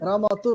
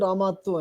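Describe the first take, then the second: First: The t sound is short and single. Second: The t sound is long and doubled.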